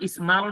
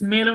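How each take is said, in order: First: The vowel sounds like the a in bat. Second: The vowel sounds like the e in bet. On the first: "স্মালও না" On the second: "এটা স্মেলও না"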